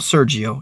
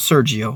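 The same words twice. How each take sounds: First: The name is said with an American English accent. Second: The name is said with an American English accent.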